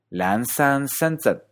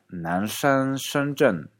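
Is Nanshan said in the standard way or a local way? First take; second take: local; standard. First: Nanshan is said the local way. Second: Nanshan is said the standard textbook way. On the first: "sino Lansan Shenzhen" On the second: "probablemente no te diga Nanshan Shenzhen"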